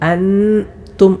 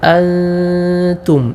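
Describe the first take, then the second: First: The n is fully articulated with the tongue. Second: The n is hidden as a nasal sound. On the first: The speaker calls it wrong. "നാവിൻ്റെ തല മേലെ മുൻപല്ലിൽ തൊട്ടുകൊണ്ട് അൻതും എന്നല്ല ഓതേണ്ടത്" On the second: The speaker calls it right. "തൊടാതെ അൻതും ഇങ്ങനെയാണ് ഉച്ചരിക്കേണ്ടത്"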